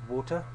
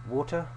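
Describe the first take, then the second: Both takes have the same delivery.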